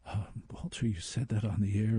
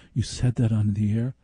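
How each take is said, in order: First: Put-on California accent. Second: Said in the usual way. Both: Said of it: "in his California accent".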